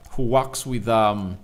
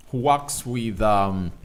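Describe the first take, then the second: No difference in how they are said.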